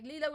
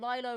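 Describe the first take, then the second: First: The first syllable sounds like 'lee'. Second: The first syllable sounds like 'lie'. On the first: "Like Lilo and Stitch?" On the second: "Or Lilo like Silo on Nuke?"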